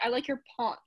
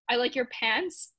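First: The A in pants is softer, French-influenced. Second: The A in pants is hard and flat. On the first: This is how Montreal English speakers say it. "but they say" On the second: This is how English speakers elsewhere say it. "we are kind of a hard A"

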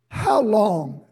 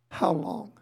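First: It is said intensely, with strong feeling. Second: It is said flatly, without feeling.

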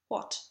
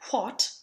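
First: The word starts with gentle unvoiced air, no puff. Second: The word starts with a strong puff of air. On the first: The speaker calls it right. "we form the shape of the U and then let the air escape without voicing it" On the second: The speaker calls it wrong. "that doesn't mean that we need a big puff of air, so we aren't really saying what"

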